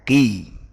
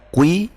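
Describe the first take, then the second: First: The syllable is heavy but not rounded. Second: The syllable is over-rounded, like kui. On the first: The speaker calls it right. "Jadi bacanya qi" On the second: The speaker calls it wrong. "bukan kui"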